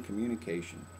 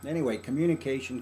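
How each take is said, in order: First: Soft echo. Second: Said in the usual way. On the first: Shown as a demonstration.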